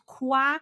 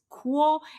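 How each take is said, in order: First: The vowel sounds like an open 'ah'. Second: The vowel sounds like a rounded 'o'. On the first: The speaker calls it wrong. "not qua" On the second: The speaker calls it right. "but quo"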